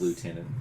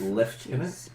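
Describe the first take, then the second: First: It is said the American way. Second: It is said the British Commonwealth way. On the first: "American, it's" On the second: "The Commonwealth is"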